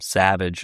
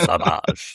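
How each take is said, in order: First: The name is said as the plain English word. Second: The name is said with a French pronunciation. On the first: The speaker calls it wrong. "I mispronounced it the whole time. I kept calling him Savage" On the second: The speaker calls it right. "no, it's Savage. He's French"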